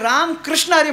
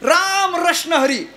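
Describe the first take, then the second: First: The middle word begins with a kr cluster. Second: The middle word begins with a plain r sound.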